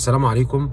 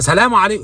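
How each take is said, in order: First: The greeting is said at a quiet volume. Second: The greeting is shouted very loudly.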